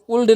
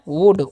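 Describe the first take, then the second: First: The L sound is pronounced. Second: The L sound is silent. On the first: The speaker calls it wrong. "उल्ड नहीं पढ़िएगा" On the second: The speaker calls it right. "इसे हम पढ़ते हैं वुड"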